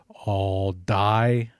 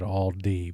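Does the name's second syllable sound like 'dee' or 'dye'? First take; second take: dye; dee. First: The second syllable sounds like 'dye'. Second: The second syllable sounds like 'dee'. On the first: The speaker calls it wrong. "when you hear me pronounce all die" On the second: The speaker calls it right. "I should have said all D because that is the proper pronunciation"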